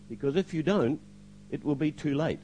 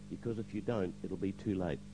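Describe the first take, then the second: First: Retold warning at normal volume; firm warning. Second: Soft, lowered retold warning; hushed warning. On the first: Voice speaks to him in church, firm warning. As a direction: give a clear, pointed warning. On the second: Pastor reveals what God told him, hushed warning. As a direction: repeat the warning gently and low.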